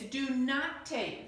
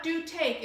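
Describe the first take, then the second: First: Slow, deliberate "not" before "take"; drawn-out negative with weight on "not"; stress on NOT. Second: "do" lifted, falling onto "take"; quick higher "do", then drop; stress on DO. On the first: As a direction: correct it by leaning on "not". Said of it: "This is a negative statement". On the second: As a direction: contrast it, punching "do". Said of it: "It's not "do take". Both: Shown as a demonstration.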